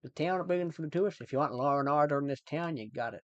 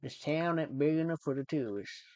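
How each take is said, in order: First: Put-on Irish accent. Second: Cowboy-film Southern American accent. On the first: Streamer shows chat cowboy-film line, Irish accent. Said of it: "I can do Irish pretty well". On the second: Streamer shows off cowboy line learned from films, Southern accent. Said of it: "I can do the Southern accent". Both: Shown as a demonstration.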